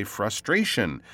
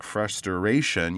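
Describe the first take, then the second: First: "frustration" said as frus-tray-shun; correct three syllables. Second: "frustration" said as frus-ter-ation; mispronounced, extra syllable. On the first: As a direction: keep STR together in "frustration". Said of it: "That's how we say that word". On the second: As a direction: imitate the learner's four-syllable "frustration". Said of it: "you won't say things like". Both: Shown as a demonstration.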